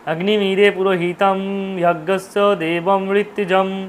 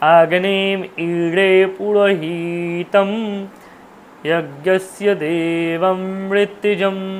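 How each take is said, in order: First: It is recited with Bengali-style pronunciation. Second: It is recited with Sanskrit-style pronunciation. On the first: The speaker calls it wrong. "আর আমরা বাংলা বলি ... কিন্তু আমাদের উচ্চারণটা এমনটা হওয়া উচিত নয়" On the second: The speaker calls it right. "এইরকমভাবে হওয়া উচিত"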